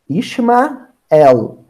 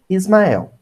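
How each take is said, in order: First: The name has an 'sh' sound before the m. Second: The name has an 's' sound before the m. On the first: This is the original Hebrew form of the name. "em hebraico" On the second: This is the Latinized Western form of the name. "Na pronúncia ocidental, a gente, né, latinizando o nome, vira"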